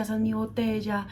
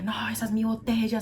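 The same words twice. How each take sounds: First: Put-on higher, whiny child's protest again; boy repeating his claim; child's protest repeated. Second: Put-on higher, whiny child's protest; mock the boy insisting it's his bottle; boy claiming his bottle; child's shouted protest. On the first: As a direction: keep the boy's insistence going. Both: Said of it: "empezó a gritar y decía".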